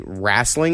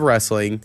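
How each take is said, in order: First: The first vowel sounds like 'a', as in rassling. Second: The first vowel sounds like 'e', as in bed. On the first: The speaker calls it wrong. "that say wrestling instead of" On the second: The speaker calls it right. "instead of wrestling"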